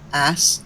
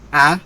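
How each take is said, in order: First: The word ends with a clear S sound. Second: The word ends without the final S sound. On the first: "like ass" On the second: "people using like the word ah"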